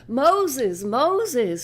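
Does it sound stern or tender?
stern. It is said as a stern warning.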